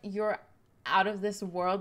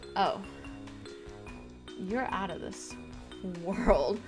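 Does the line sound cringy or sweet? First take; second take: sweet; cringy. First: It is said sweetly, not cringy. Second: It is said in a cringy, overdone way.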